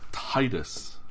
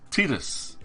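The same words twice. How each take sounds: First: The first syllable sounds like the word 'tide'. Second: The first syllable does not sound like 'tide'. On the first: The speaker calls it wrong. "I always pronounced it as Tidus. You know, tide, water" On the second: The speaker calls it right. "if you look at the Japanese pronunciation, it was Tidus"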